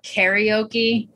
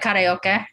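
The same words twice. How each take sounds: First: It is said with the American pronunciation. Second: It is said with the family's pronunciation. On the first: "that's how Americans say it" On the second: "how my family would say it back home"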